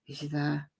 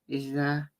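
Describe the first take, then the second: First: It is a whisper with some throat voice. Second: It is a whisper with some throat voice.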